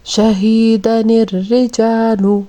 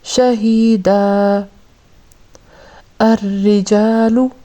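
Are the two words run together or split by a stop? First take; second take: run together; split. First: The words run together with a linking 'ni'. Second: A stop falls after 'shahida', dropping the 'ni'.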